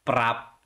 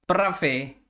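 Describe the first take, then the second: First: The word is said the Filipino way, ending in 'p'. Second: The word is said the Greek way, ending in a vowel. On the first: The speaker calls it wrong. "sana naman yung pronunciation, prap. Sino ba nagpauso ng prap na yan?" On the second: The speaker calls it right. "pag sa mga Greeks, frappe"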